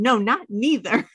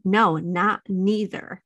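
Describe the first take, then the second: First: Put-on a light childish whine, slightly raised; quick stubborn-kid retort; imitating toddler. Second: Slow childish protest, lightly voiced; imitating toddler. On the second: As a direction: drag it out like a stubborn little boy. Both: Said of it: "That's how he says".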